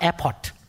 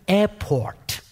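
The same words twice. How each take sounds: First: The word is said with a foreign accent. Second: The word is said in standard American pronunciation. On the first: The speaker calls it wrong. "not airport" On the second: The speaker calls it right. "I got corrected by the nurse"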